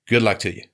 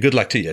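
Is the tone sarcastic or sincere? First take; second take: sarcastic; sincere. First: It is said in a sarcastic tone. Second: It is said in a sincere tone. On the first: The wish is not meant. "that sounds sarcastic" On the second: The wish is genuinely meant.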